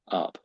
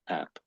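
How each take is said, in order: First: The vowel is short, like in 'cup'. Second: The vowel is open, like in 'cat'. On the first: The speaker calls it wrong. "It was almost a little bit like up" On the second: The speaker calls it right. "ninety-five people out of one hundred would probably say app"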